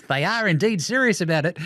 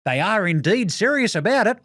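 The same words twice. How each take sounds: First: Said in the usual way. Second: Prim, stiff reporter voice; dorky journalist. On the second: Retold or imitated. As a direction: read it like a pompous nerd. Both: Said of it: "dork journalists are the funniest".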